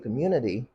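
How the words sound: It is said with an American accent. "Americans say community"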